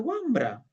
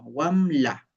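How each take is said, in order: First: It is said the Ancash way, with mbr. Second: It is said the Junín way, with ml. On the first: "en Ancash se dice Wambra" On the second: "en Junín la pronunciación es distinta"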